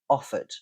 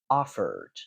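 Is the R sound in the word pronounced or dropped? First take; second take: dropped; pronounced. First: The R sound is dropped. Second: The R sound is pronounced. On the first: "You can hear that I don't produce the R" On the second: "In a rhotic accent, you'd say offered"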